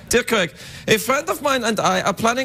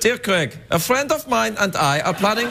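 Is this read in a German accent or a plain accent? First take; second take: plain; German. First: It is read in the speaker's normal accent. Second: It is read in a put-on German accent. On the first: The speaker calls it right. "Be respectful" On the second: The speaker calls it wrong. "I'll read this in a German accent"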